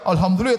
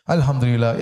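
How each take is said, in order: First: It is said in a boastful, arrogant tone. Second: It is said in a modest, humble tone. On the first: The speaker is showing off their blessings. The speaker calls it wrong. "tapi sombong cara ngomongnya" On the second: The speaker is humbly grateful to God. The speaker calls it right. "artinya kau sebutkan dengan tawadhu"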